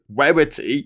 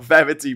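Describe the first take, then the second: First: The name begins with a W sound. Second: The name begins with a V sound. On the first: The speaker calls it right. "but it's Werity" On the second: The speaker calls it wrong. "It's not Verity"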